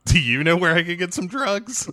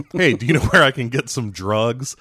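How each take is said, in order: First: High-pitched mock-innocent question; hammed-up awkward asking, rising at the end; awkward question back. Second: Mock undercover cop asking casually; lightly acted awkward ask; awkward question. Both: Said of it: "Which leads to awkward conversations".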